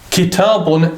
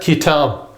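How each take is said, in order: First: The word ends with an added 'un' sound. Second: The word ends on 'b' with no vowel. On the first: The full grammatical ending is shown. "that word will have two dhammas on the end" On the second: The speaker stops at this word. "the tanween would not be pronounced"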